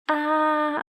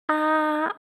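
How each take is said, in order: First: The pitch stays high and level throughout. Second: The pitch stays high and level throughout.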